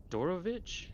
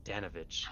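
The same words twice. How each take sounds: First: "Dorovich" said with an R, rising like a question; wrong name. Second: "Danovich" said with D-A-N, falling and settled; corrected name. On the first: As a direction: mispronounce it as "Dorovich", with O-R in the middle. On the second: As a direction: repeat it properly as "Danovich". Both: Acted.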